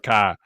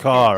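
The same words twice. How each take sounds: First: The final r is dropped, Boston style. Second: The final r is clearly pronounced. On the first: This is how the character used to talk. "instead of car" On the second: This is how the character now talks, as a well-spoken Bostonian. "says car"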